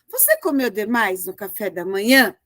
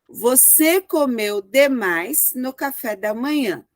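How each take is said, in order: First: It is asked as a question. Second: It is said as a plain falling statement.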